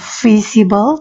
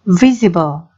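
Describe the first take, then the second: First: The word begins with an F sound. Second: The word begins with a V sound. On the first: The speaker calls it wrong. "bukan visible" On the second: The speaker calls it right. "tetapi visible"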